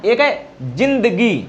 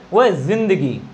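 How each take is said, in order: First: जिंदगी with a plain j sound, d͡ʒ; जिंदगी spoken with the plain ज, not the buzzing z. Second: जिंदगी with a buzzing z, as in Urdu; जिंदगी with the nukta sound, z not j. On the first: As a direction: say जिंदगी with the ordinary Hindi j. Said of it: "इसके दो उच्चारण हैं". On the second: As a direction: say जिंदगी starting on a voiced z. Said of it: "सही उच्चारण होता है उर्दू भाषा की तरह". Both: Shown as a demonstration.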